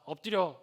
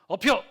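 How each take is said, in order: First: The word is pronounced clearly and fully. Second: The word is slurred with air leaking through.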